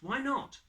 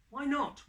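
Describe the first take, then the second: First: Put-on high child voice, rising at the end; repeated plea climbing upward; insistent child. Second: Put-on high, eager little-child voice; young Gruffalo pleading; curious child. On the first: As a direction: push the question up like a whining kid. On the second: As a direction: ask like a pestering small child.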